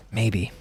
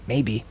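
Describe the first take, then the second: No difference in how they are said.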